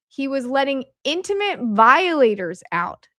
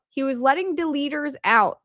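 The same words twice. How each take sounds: First: "intimate violators" punched, pitched higher; stress on INTIMATE VIOLATORS. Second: Said in the usual way. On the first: Shown as a demonstration. Speaker restores the censored quote for viewers, stressing "intimate violators". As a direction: hit "intimate violators" hard as the true wording. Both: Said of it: "The word deleters is replaced".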